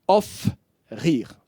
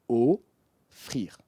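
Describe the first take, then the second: First: The word is split into two parts with a pause. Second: The word is said smoothly without any pause. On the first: The speaker calls it wrong. "Vous ne direz pas offrir, off, rire. Ce n'est pas possible" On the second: The speaker calls it right. "Vous diriez offrir"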